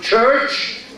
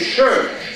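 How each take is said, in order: First: The word is said with a 'ch' sound. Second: The word is said with an 'sh' sound. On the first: "instead of church" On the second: "They say it she"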